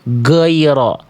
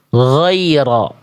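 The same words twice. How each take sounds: First: The first sound is blocked, close to a g. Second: The first sound is a smooth, voiced throaty gh. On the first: The speaker calls it wrong. "mampet ghainnya" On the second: The speaker calls it right. "yang tepat adalah yang yang D"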